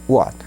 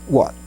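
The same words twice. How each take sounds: The two takes are said the same way.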